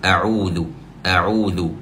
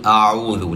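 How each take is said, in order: First: أعوذ said with a clear throat ain on a rounded u; correct ain. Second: أعوذ said with the ain lost into an alif sound; mock wrong reading of أعوذ. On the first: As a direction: demo the right ain in أعوذ, rounded and firm. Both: Shown as a demonstration. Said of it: "لا، خطأ".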